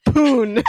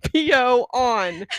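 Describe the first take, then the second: First: Poon as one higher syllable, rhyming with moon; run together. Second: P O on, slow as three separate words; spaced out. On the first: Host showing the typo, Poon run together as one word. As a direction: blurt Poon as a single word. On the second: Host explaining the customer's typo, slowly spacing out "P O on". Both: Shown as a demonstration. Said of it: "he didn't space it".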